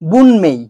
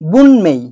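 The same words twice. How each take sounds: First: It is said with an n before 'mei'. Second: The same.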